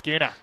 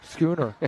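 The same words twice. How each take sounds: First: It is said Australian-style with the final R dropped. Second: It is said Irish-style with the final R pronounced.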